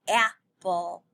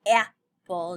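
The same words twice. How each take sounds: First: "apple" with the a punched at the start; stressed first sound. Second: "Apple" lower with a loud opening a; stressed first sound. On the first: Teacher showing the a sound in apple. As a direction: hit the opening a of "apple". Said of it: "Do you hear the a?". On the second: Teacher repeating apple to show the a. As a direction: open "Apple" with a heavy a. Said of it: "I do right in the beginning". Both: Shown as a demonstration.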